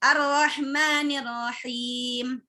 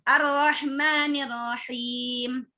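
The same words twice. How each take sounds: First: The vowel after the m is kept short. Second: The vowel after the m is kept short.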